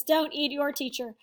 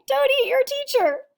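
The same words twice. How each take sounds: First: Said in the usual way. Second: Higher, louder "don't eat your teacher"; emphatic. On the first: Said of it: "The shrimp says". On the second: Shown as a demonstration. Teacher repeating the moral to the class, higher and louder. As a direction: stress "don't" with a strong fall. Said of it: "That's right".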